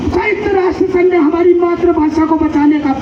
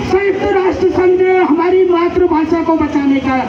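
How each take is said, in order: Both takes have the same delivery.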